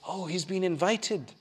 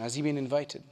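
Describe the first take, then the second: First: It is said as a delighted exclamation. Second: It is said as a questioning inquiry.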